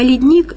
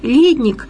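First: The stress is on the second syllable. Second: The stress is on the first syllable. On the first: It means a glacier on a mountain. "ледник – это вершина горы, покрытая снегом и льдом" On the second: It means a cellar. "Ледник – это погреб"

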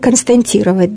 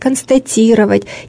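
First: The word has an extra n sound inside. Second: The word has no extra n sound inside. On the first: The speaker calls it wrong. "Или «константировать», да, совершенно верно" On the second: The speaker calls it right. "нельзя вставлять внутрь ненужный звук «н»"

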